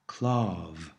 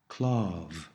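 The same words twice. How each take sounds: First: The word ends with a clear v sound. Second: The same.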